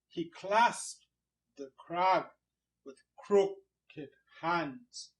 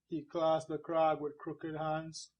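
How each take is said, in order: First: Alternate syllables are stressed in a steady beat. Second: Every syllable gets the same flat weight. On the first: The speaker calls it right. "we put some stress on some syllables" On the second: The speaker calls it wrong. "we don't read these lines"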